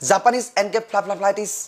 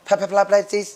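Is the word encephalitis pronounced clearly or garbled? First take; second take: clearly; garbled. First: The word is pronounced clearly and fully. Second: The word is stumbled over and garbled. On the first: The speaker calls it right. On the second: The speaker calls it wrong.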